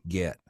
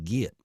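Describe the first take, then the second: First: Said in a General American accent. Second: Said in the speaker's own regional accent. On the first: "You guys say get" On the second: "I don't. I say get"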